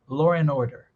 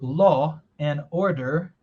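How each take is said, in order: First: An r sound joins law and and. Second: Each word is said fully and separately. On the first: "Dá para colocar até um som de R entre law e end" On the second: "Você pode ter falado"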